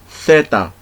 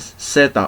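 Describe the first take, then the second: First: The z is said like English th. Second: The z is said like an s.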